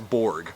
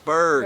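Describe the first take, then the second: First: The vowel sounds like 'or' in 'fork'. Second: The vowel sounds like 'er' in 'iceberg'. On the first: The speaker calls it wrong. "everyone says Borg" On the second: The speaker calls it right. "no, it's Berg"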